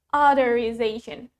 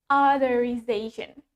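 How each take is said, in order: The two takes are said the same way.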